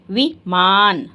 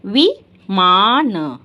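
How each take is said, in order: First: Slow, drawn-out विमान again; a slightly shorter slow take; slow repeat. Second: Drawn out विमान; slow answer to the teacher's question; slow teaching. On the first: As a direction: repeat it slowly. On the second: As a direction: stretch the word for the class. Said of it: "क्या बताया था". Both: Shown as a demonstration.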